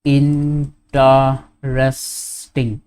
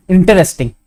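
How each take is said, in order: First: "Interesting" very slow, in four separate syllables; "Interesting" stretched right out, lower, each syllable held apart. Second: Said in the usual way. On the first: Shown as a demonstration. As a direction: break "Interesting" into in-ter-es-ting with gaps. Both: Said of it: "four syllables".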